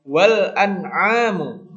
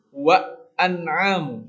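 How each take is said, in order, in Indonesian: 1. Huruf L jelas diucapkan. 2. Huruf L sama sekali dihilangkan. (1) "lamnya itu dibaca" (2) "bukan wa an'amu"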